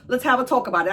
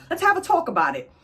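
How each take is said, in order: First: Said in the usual way. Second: Put-on higher and faster, a stalling old king; hammed-up royal brush-off, higher; mock king, higher. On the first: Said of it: "So he's like". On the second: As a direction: toss it off quickly, pitched up. Old king repeats his stalling line.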